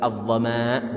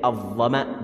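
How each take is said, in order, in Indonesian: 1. Vokal dalam kata itu dipanjangkan. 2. Vokal dalam kata itu diucapkan pendek. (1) "bukan gitu" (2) "dibaca dengan pendek"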